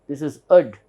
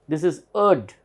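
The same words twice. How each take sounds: Both takes have the same delivery.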